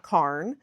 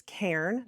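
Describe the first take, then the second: First: "carn" with an ah vowel; the mistaken KARN for "carn"; wrong pronunciation. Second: "cairn" with an air vowel; "cairn" as KAIRN; correct pronunciation. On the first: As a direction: say "carn" to rhyme with barn. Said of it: "not carn". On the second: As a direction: say "cairn" to rhyme with bairn. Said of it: "I've learned it's cairn". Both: Shown as a demonstration.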